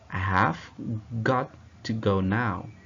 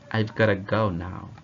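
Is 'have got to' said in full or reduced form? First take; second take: full; reduced. First: Every word is said fully and separately. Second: The words are contracted and run together.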